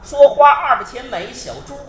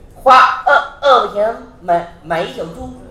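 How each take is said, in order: First: The words are spoken crisply and clearly. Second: The words are spoken with a slurred, lisping tongue. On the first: The speaker calls it right. "相声演员必须得说得清楚" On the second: The speaker calls it wrong. "比如说嘴里有毛病"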